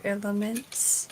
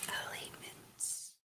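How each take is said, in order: First: Said in the usual way. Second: Slow whispered Elements with long e; whispered echo. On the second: Real, not acted. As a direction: breathe Elements out slowly. Echoes the word whispered.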